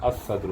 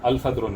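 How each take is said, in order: First: The L merges into a doubled S sound. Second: The article's L sound is clearly pronounced. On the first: The speaker calls it right. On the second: The speaker calls it wrong.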